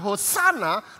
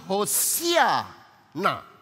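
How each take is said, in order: First: It is said without an 'ee' after 's'. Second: It is said with an 'ee' after 's'. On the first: The speaker calls it wrong. "kata yang tepat sebenarnya bukanlah hosana" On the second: The speaker calls it right. "tetapi hosiana"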